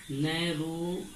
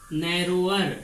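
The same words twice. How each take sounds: First: narrower drawn out in two pieces, narrow and अर; slow dictation. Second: Said in the usual way. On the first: Shown as a demonstration. Teacher repeating the comparative for students, slow dictation. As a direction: stretch narrower slowly with a gap before अर.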